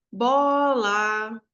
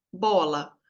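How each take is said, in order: First: BOLA called out with BO held long; drawn-out musical "Bola", weight on BO; calling the word. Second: Said in the usual way. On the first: Shown as a demonstration. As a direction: call "Bola" as if summoning it, stretching BO. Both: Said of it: "fica mais longo quando eu chamo".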